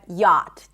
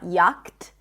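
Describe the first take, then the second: First: No 'ch' sound, just a vowel then t. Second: A 'ch' sound is pronounced before the t. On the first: The speaker calls it right. "but yacht, just like a y sound, as in father, and a T" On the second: The speaker calls it wrong. "We do not pronounce the C H, right? It's not yacht"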